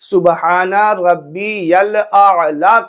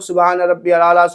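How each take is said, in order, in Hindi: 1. यह वाक्यांश धीरे और ध्यान से कहा जाता है। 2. यह वाक्यांश बहुत जल्दी-जल्दी बोल दिया जाता है। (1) "सुबहाना रब्बी यल आला कहना है" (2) "इतनी तेज तेज अदा करते हैं"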